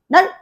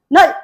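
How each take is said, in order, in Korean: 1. 마지막 ㄹ 소리는 빨리 닫혀요. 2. 마지막 ㄹ 소리는 빨리 닫혀요.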